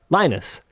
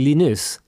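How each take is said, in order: First: The name is said in the English way. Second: The name is said in the French way. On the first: This is how the letters are read in English. "Here in English, those letters in that order are not pronounced like that. They are Linus" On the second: This is how the letters are read in French. "because in French, that is how those letters in that order are pronounced"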